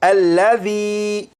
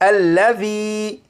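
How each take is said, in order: Both takes have the same delivery.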